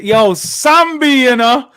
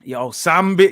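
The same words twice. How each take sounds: First: Louder and higher, stretched slowly; drawn-out call. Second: Said in the usual way. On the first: Real, not acted. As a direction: call his name out long and loud, in delight. Calling the player's name, drawn out.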